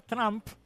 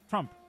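First: The vowel sounds like a clear open 'a'. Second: The vowel sounds between a 'u' and an 'a'. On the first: The speaker calls it wrong. "Porque si a fuera Trump" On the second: The speaker calls it right. "Es entre una U y una A"

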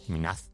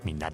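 First: The word ends with a Z sound. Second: The word ends with a D sound.

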